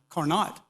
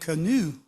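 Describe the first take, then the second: First: The name is said in a Georgia accent. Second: The name is said with French pronunciation.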